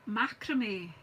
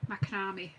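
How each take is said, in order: First: It is pronounced the way other people say it. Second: It is pronounced the way it is said in Scotland. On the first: "I know I heard some people say macrame" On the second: "in Scotland, since I was a wee girl, it's been called macrame"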